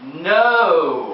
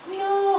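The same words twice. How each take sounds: First: It is said more firmly. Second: It is said gently and softly.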